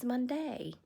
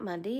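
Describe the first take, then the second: First: The final syllable is pronounced like 'day'. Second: The final syllable is pronounced like 'dee'. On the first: The speaker calls it right. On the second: The speaker calls it wrong.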